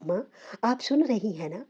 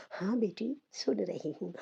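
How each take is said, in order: First: Said in the usual way. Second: Softer, fading and frail; a dying mother's weak, softer reply. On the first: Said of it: "मैंने इन्हें हिलाकर कहा". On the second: A narrator's reading. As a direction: let the words barely come out. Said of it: "वो कमज़ोर आवाज़ में बोली".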